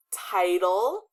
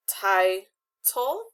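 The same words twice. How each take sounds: First: Said in the usual way. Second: Title broken into "ti" and "tle"; title with a clear pause between syllables; split into syllables. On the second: Shown as a demonstration. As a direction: say title as two separate beats, ti, tle. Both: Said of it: "split them correctly".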